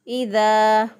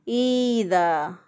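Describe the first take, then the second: First: The first vowel is kept short. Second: The first vowel is stretched long. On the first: The speaker calls it right. "दुरुस्त अदायगी है" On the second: The speaker calls it wrong. "हमज़ा को भी खींच देते हैं जिससे यहाँ पे या पैदा हो जाती है"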